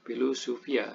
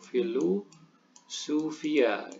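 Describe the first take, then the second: First: The word begins with a hard p sound. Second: The word begins with a soft f sound. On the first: "Ini harusnya dibaca V tapi P" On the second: "bahasa aslinya adalah dengan ve di sini"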